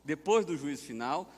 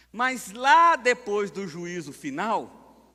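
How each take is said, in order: First: Said in the usual way. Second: "lá" stretched high and loud; emphatic stress. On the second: Real, not acted. Pastor teaching what follows final judgment, "lá" drawn out loudly. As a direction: lean hard and slowly on "lá". Emphatic take, then casual repeat.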